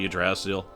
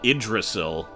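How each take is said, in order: First: The word begins with a 'u' vowel sound. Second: The word begins with an 'i' vowel sound. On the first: The speaker calls it wrong. "but I'm just going to say Yggdrasil" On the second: The speaker calls it right. "more likely pronounced uh, Idrisil"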